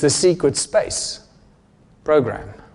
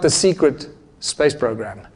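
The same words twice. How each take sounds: First: The break comes after the word space. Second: The break comes after the word secret. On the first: The program is about space, which is itself a secret. The speaker calls it right. "Space is a secret" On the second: The program itself is kept secret. The speaker calls it wrong. "the comma is in the wrong place"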